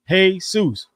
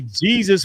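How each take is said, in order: First: The word begins with an H sound. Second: The word begins with a J sound. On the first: It is the Spanish way of saying the name. "pronounce it with an H" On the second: It is the English way of saying the name. "say Jesus with a J"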